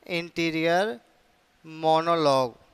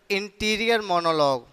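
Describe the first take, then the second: First: "interior", pause, then "monologue"; word-by-word dictation. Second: Said in the usual way. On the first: Shown as a demonstration. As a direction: dictate "interior monologue" as two separated words. Term repeated word by word.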